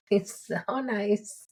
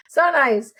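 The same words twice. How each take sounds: First: Slow, lightly accented coach imitation; imitating coach. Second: Louder, higher laughing mock coach; hammed-up coach impression with a laugh; imitating coach. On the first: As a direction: mimic the coach, drawn out. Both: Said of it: "He's always talking with a little accent".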